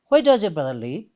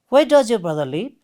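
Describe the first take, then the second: No difference in how they are said.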